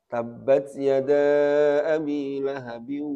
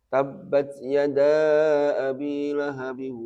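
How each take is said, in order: No difference in how they are said.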